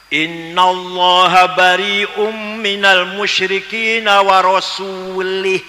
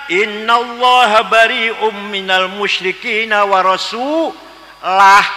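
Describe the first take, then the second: First: The last word ends with an 'i' vowel. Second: The last word ends with a 'u' vowel. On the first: God disowns the idolaters and disowns His Messenger. The speaker calls it wrong. "Kalau warasuli" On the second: God and His Messenger both disown the idolaters. The speaker calls it right. "Yang benar"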